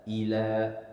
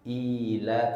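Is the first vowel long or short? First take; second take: short; long. First: The first vowel is cut short. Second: The first vowel is held long. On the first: The speaker calls it wrong. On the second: The speaker calls it right. "termasuk ayat kedua"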